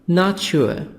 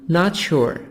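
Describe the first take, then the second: No difference in how they are said.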